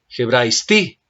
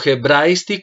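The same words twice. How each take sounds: First: The stress falls on the last syllable. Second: The stress falls on the first iota syllable. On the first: The speaker calls it right. "Y aquí el acento está sobre la última" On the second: The speaker calls it wrong. "Tú me estás diciendo hebraisti como si sobre la iota, la primera, existiese un acento"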